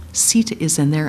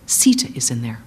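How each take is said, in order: First: Said in the usual way. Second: Low, hushed horrified whisper. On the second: Acted. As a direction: gasp it out in dread. Hanuman realizes in horror.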